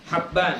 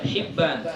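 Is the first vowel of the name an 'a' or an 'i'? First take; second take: a; i. First: The first vowel is an open 'a' sound. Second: The first vowel is a closed 'i' sound. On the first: The speaker calls it right. "bi fathil ha'i wal ba'il muwahhadati" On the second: The speaker calls it wrong. "bukan hibban"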